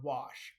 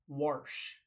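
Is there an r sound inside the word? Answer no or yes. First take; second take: No; Yes. First: The word is said without any r sound. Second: The word is said with an r sound, like warsh. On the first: This is the standard way of saying it. "instead of the word wash" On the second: This is the local Midwestern way of saying it. "you'll hear a lot of people say wash"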